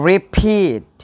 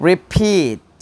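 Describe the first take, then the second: Both takes have the same delivery.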